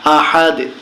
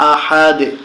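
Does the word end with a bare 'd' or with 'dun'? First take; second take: bare d; bare d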